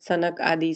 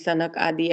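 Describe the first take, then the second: Both takes have the same delivery.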